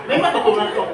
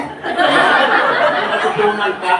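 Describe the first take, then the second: First: Said in the usual way. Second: Stretched very slowly, louder, with a laugh; drawn-out slow. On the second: Shown as a demonstration. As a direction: drag each syllable to show the slow way. (dahan-dahang binabanat) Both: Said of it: "Mabilisan o matagalan?".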